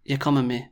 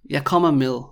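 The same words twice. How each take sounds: First: "med" with its final D dropped. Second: "med" sounded like "mil"; med with soft D. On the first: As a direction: say "med" as "me", ending on the vowel. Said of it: "you probably wouldn't say "me". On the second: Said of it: "it sounds a bit weird to me". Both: Shown as a demonstration.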